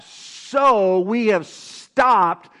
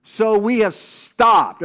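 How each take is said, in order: First: So we have stopped drawn out slow and loud; slow emphatic reading. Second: So we have stopped again slow and loud; slow emphatic repeat. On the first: Preacher reading scripture to congregation, very slow and emphatic. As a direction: stretch each word of So we have stopped. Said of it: "everybody say". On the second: Preacher repeating scripture for congregation, slow and emphatic. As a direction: lean hard on So we have stopped. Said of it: "Everybody say". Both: Shown as a demonstration.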